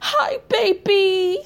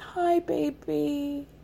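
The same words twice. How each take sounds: First: It is said in a lively, upbeat way. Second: It is said in a quiet, subdued way.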